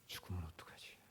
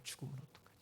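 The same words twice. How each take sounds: First: Breathy, hushed worry; low, whispered self-doubt; fearful whisper to himself. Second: Said in the usual way. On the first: Retold or imitated. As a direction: whisper it like a secret fear. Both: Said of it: "나는 있더라고요".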